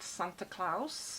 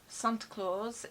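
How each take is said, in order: First: It is said in a German accent. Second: It is said in a plain English accent.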